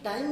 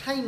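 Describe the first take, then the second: First: टाइम with a plain hard ट; टाइम, no puff after the T; unaspirated T. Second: टाइम as "thaim"; टाइम with a burst of breath on T; aspirated T. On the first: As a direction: say टाइम without breath on T. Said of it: "टाइम नहीं होता". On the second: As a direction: say टाइम with ठ at the start. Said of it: "TH का pronunciation करते हैं". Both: Shown as a demonstration.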